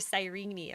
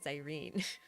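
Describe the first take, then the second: First: The final E is pronounced as a syllable. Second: The final E is silent. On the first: The speaker calls it wrong. "I'm not gonna call her" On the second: The speaker calls it right. "I will not pronounce that last E"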